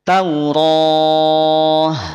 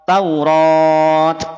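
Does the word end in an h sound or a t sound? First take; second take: h; t. First: The word ends with an h sound. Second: The word ends with a t sound. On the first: The speaker calls it right. "ketika sukun dia dibaca ha" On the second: The speaker calls it wrong. "tidak dibaca Taurat"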